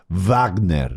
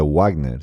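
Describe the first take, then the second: First: The name begins with a V sound. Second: The name begins with a W sound. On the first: The speaker calls it right. "Si es alemán, es Wagner. ... W no se pronuncia doble W, se dice V" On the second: The speaker calls it wrong. "no se dice Wagner"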